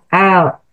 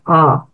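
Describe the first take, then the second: First: The hamzah sounds thin and light. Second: The hamzah sounds thick and heavy. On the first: The speaker calls it right. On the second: The speaker calls it wrong.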